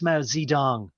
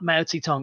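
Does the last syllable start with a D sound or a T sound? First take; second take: D sound; T sound. First: The last syllable starts with a D sound. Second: The last syllable starts with a T sound. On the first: This is the newer way of rendering the name. "it's Mao Zedong" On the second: This is the older way of rendering the name. "It's not Mao Zedong"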